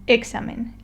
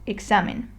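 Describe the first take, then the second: First: The stress is on the first syllable. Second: The stress is on the second syllable. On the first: The speaker calls it wrong. "if I decided to stress the E, it would sound examen" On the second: The speaker calls it right. "the proper way to read it would be examen"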